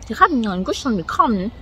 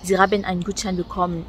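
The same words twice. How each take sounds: First: It is spoken with an odd, distorted, forced accent. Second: It is spoken with plain, standard German pronunciation. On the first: The words are twisted on purpose to be hard to understand. "elle déformait un peu les mots là" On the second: This is what the person meant to say. "elle veut dire"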